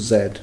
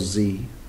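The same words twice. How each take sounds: First: It is said the British way, as zed. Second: It is said the American way, as zee.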